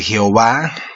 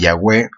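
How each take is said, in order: First: The name is said as 'Jehová'. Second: The name is said as 'Yahweh'.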